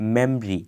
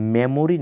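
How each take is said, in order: First: The word has only two syllables. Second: The word has three full syllables. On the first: The speaker calls it right. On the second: The speaker calls it wrong.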